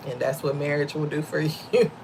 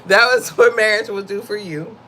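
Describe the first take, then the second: First: Laughing aside. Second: "what marriage will do for you" repeated louder with weight on "what"; punchline repeat. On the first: Real, not acted. Laughing about her husband. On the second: Shown as a demonstration. Wife repeating her joke about marriage, emphatic punchline. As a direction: land the line firmly as a punchline.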